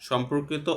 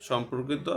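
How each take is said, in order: The two takes are said the same way.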